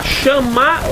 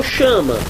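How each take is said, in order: First: Chamar with a long, stressed final MAR; stress on final syllable. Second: Chama with the stress on CHA; stress on first syllable. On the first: Teacher offering choices to students, Chamar stressed on the end. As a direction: say Chamar as sha-MA, last syllable strong. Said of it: "Onde é que tá a sílaba tônica?". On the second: Teacher offering choices to students, chama stressed on the start. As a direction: say chama as SHA-ma, ending weak. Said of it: "você não tá lendo chama". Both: Shown as a demonstration.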